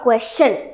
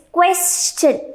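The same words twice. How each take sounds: First: "question" in the mistaken way; mispronunciation demo. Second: "question" stretched as kwes-shn; correct pronunciation demo. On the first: Teacher warning it is not question, mispronunciation demo. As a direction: give "question" as the version to avoid. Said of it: "It is not question". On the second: Teacher confirming the word for students, correct pronunciation demo. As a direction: draw out the s of "question" into a sh ending. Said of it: "So it is question". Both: Shown as a demonstration.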